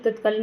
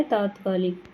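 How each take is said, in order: First: तत्कालिक with short a in the first syllable; wrong spelling said. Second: तात्कालिक with long taa at the start; correct spelling said. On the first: Teacher shows students the wrong form, plain demo. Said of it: "तत्कालिक नहीं होता". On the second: Teacher gives students the correct form, clear demo. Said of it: "क्या होता है, तात्कालिक". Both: Shown as a demonstration.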